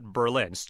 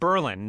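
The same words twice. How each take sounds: First: The stress is on the second syllable. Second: The stress is on the first syllable. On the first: This is the expected pronunciation. The speaker calls it wrong. "not Berlin" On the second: This is the local name of the town. The speaker calls it right. "we've got Berlin"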